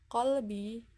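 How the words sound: The word starts with a deep q consonant. This is the standard Arabic form. "huruf qaf contohnya dalam lafal qalbi"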